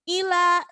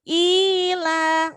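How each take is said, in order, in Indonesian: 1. Vokal pertama dipotong pendek. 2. Vokal pertama ditahan panjang. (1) "I-nya itu enggak dibaca panjang, nge, terselip" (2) "sama-sama ada kasroh berdiri"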